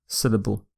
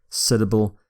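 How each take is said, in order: The two takes are said the same way.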